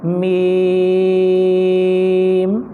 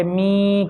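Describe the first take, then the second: First: میم with long clear ee, closing on m; correct meem. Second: می hummed into the nose; nasal meem. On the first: Teacher corrects children, clear stretched meem. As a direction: hold میم on one note, out of the nose. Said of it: "ایسا نہیں، بلکہ اس کو". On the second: Teacher shows children's mistake, nasal. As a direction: send the ee of می through the nose. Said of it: "ناک میں لے". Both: Shown as a demonstration.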